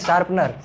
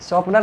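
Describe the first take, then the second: First: The first vowel sounds like 'a'. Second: The first vowel sounds like 'o'. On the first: The speaker calls it right. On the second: The speaker calls it wrong. "शॉर्पनर नहीं"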